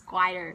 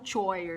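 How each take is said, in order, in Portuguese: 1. A palavra começa com som de k. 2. A palavra começa com som de ch. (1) "we're not gonna say ch" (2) "there's no choir"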